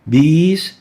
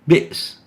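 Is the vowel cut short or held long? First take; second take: long; cut short. First: The vowel is held long and smooth. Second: The vowel is cut short and interrupted. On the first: The vowel has no hamza. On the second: The vowel has a hamza.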